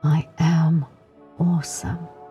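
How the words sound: It is said softly, with quiet gentle certainty. "with gentle knowing"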